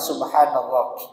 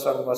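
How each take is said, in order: First: The word is said slowly and deliberately. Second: The word is rattled off quickly in a series. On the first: It is felt and has an effect. The speaker calls it right. "zikir dengan pelan-pelan" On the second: It is mere words without feeling. The speaker calls it wrong. "model zikirnya apa? Kata tadi"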